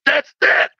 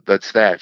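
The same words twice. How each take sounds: First: Very high-pitched exclamation of revelation; comic high eureka cry; Charlie Brown. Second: Said in the usual way. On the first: Retold or imitated. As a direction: cry out as if finally diagnosed. Charlie Brown's revelation, acted as punchline.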